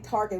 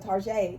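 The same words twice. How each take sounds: First: It is said the ordinary English way. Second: It is said with a French-style ending. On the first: "We don't say Target" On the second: "We go Target"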